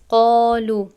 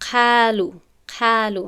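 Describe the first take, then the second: First: The first syllable is heavy with a full, raised tongue. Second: The first syllable is light and thin. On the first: The speaker calls it right. "حرفی مستعلیه دیگر هست" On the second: The speaker calls it wrong. "اگر من این را خالی بخوانم"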